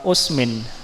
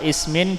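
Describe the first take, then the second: First: The word begins with a 'u' vowel. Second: The word begins with an 'i' vowel. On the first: "dan domah" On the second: "dengan kasroh"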